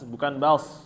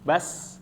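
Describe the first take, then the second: First: The s sound is thick and heavy. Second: The s sound is thin and light. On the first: The speaker calls it wrong. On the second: The speaker calls it right. "dibacanya sin, bukan so"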